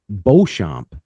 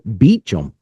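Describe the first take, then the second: First: The name is said with a French pronunciation. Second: The name is said with an anglicized pronunciation. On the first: The speaker calls it right. "I would call it Beauchamp" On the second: The speaker calls it wrong. "he pronounces it Beecham because he's been down in the States so long"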